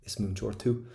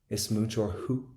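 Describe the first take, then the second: First: The last word begins with a T sound. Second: The last word begins with an H sound. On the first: The speaker calls it wrong. "Very choppy" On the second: The speaker calls it right. "Pop a wee little H in it"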